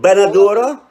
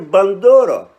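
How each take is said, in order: First: The word is said with four syllables. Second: The word is said with three syllables. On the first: This is the other person's way of saying it. "You say" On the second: This is the speaker's own way of saying it. "I say"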